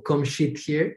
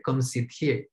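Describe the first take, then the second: First: "sit" said with a sh sound, like "shit"; sh instead of s. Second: "sit" said with a clear s sound; clean s sound. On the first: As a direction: start "sit" with sh, not s. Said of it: "porque es una sh, no una s". ("sit" pronunciado con sh, como "shit") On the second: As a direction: start "sit" with a crisp s, no sh. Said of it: "no una s". ("sit" pronunciado con s clara) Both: Shown as a demonstration.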